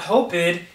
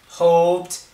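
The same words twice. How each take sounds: First: The ending is said as an extra syllable. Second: The ending is a plain t sound, one syllable. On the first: The speaker calls it wrong. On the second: The speaker calls it right.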